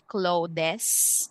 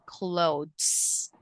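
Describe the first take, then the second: First: The e is sounded as an extra syllable. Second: The e is silent, making one syllable. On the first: The speaker calls it wrong. "we don't say clothes" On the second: The speaker calls it right. "silent e"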